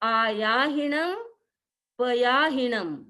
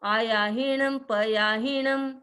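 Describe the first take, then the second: First: The two words are kept apart with a break. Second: The two words are run together without a break. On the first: The speaker calls it right. "ये है" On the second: The speaker calls it wrong. "कई लोग बोलते हैं इनको साथ में"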